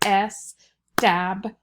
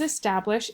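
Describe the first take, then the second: First: "establish" said slowly, split into syllables es-tab-lish; slow syllable-by-syllable "establish" for the class; clapped syllables. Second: Said in the usual way. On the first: Shown as a demonstration. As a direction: clap out "establish" one syllable at a time. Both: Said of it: "If we clap that".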